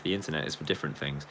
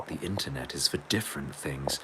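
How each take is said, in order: First: Said in the usual way. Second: Breathy hushed whisper of the line. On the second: Shown as a demonstration. Streamer repeats the chat message as a mock-secret whisper.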